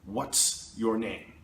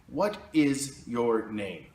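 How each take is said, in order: First: It is contracted and quicker: what's. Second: It is said in full, slowly: what is. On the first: The speaker calls it right. "a native speaker usually is going to say" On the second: The speaker calls it wrong. "what is your name is a little bit slow"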